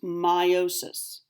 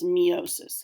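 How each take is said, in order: First: The first syllable does not sound like 'me'. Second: The first syllable sounds like 'me'. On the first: The speaker calls it right. "correctly pronounced" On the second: The speaker calls it wrong. "it looks like it's pronounced meiosis, has the word me and then osis in it"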